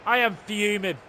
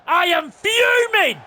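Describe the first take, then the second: First: Low, held-in anger; contained fuming. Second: Slow, loud, raised-pitch angry outburst; fuming. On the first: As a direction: state your fury with the lid still on. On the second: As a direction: stretch it into a furious shout. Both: Real, not acted.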